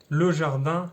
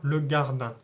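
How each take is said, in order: First: The noun begins with a soft j sound. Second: The noun begins with a hard g sound. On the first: This is the standard French form. "Le je qui devient ge" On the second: This is the Ch'ti dialect form. "Le je qui devient ge"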